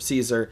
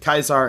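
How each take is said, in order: First: The name begins with a soft S sound. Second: The name begins with a hard K sound. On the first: This is the usual modern pronunciation. "instead of Caesar" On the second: This follows the original Latin. "why I pronounce it Kaisar"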